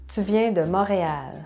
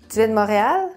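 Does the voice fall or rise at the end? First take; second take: fall; rise. First: The voice falls at the end. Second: The voice rises at the end. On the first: It states a fact. "la phrase normale" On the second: It asks a yes-or-no question. "monter l'intonation à la fin de la phrase"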